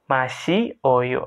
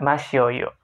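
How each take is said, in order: First: The vowels are kept as separate syllables. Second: The vowels merge into one quicker syllable. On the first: "bentuk dasarnya"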